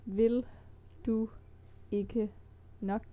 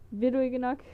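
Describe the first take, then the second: First: It is said slowly. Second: It is said at normal speed.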